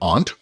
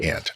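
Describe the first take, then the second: First: It does not sound like the insect ant. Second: It sounds just like the insect ant. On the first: "Should we call it the aunt" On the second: "I call it ant just because I think it relates now to those little creatures"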